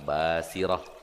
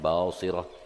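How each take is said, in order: First: The s is a plain, light s sound. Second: The s is a heavy, emphatic s sound. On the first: The speaker calls it right. "yang benar Basirah" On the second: The speaker calls it wrong. "bukan Basirah"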